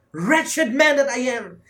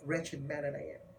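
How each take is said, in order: First: High, loud and slow, full of self-reproach; slow anguished cry; frustrated anguish. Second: Much softer, a hushed verdict on himself; hushed confession; quiet self-judgement. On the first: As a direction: cry it out like a man disgusted with himself. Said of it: "He was so frustrated with himself". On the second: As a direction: say it low, as a sober admission. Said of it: "He considers himself". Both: Acted.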